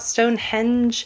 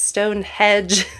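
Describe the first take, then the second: First: The second part sounds like 'henge', with an n. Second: The second part sounds like 'hedge', without an n. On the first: The speaker calls it wrong. "It is not" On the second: The speaker calls it right. "like a hedgerow"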